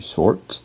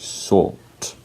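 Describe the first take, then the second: First: The R after the vowel is clearly pronounced. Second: The R is silent and the vowel is lengthened. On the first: "So in American English, you say sort" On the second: "In British English, you say sort"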